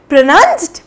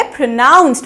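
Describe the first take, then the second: First: प्रोनाउंस्ड said the wrong way, as a mistake to avoid; wrong pronunciation. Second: प्रोनाउंस्ड said the correct way, calmly modelled; correct pronunciation. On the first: Teacher demos the learners' mistake, प्रोनाउंस्ड said wrong. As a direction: model the common mistake प्रोनाउंस्ड. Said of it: "बिल्कुल गलत". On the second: Teacher models the correct form for learners, प्रोनाउंस्ड said right. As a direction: give the right version of प्रोनाउंस्ड. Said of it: "इसको हम लोग बोलेंगे". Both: Shown as a demonstration.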